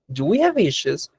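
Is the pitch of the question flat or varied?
varied. The question is read with a moving question pitch. The speaker calls it right. "le estoy dando una modulación, una entonación específica"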